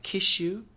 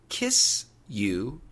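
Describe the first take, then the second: First: An sh sound comes before 'you'. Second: A plain s sound comes before 'you'.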